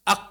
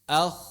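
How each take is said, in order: First: The final consonant stops abruptly with no friction. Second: The final consonant flows with continuous friction. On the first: The speaker calls it wrong. "bukan ag" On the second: The speaker calls it right. "Jadi dia suaranya ngalir"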